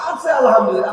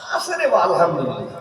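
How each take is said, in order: First: It is said straight through without pausing. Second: A groaning pause comes before the final word. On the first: The speaker is fully content. The speaker calls it right. "Direct" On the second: The speaker is not fully content. The speaker calls it wrong. "তার আগে একটু ... এই দুই তিন second কোতে আছে না?"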